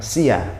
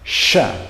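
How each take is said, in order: First: It begins with 's' followed by a 'y' glide. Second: It begins with a single full 'sh' sound. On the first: The speaker calls it wrong. "diucapkan seperti huruf s dan y" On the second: The speaker calls it right. "Sha bukan sia"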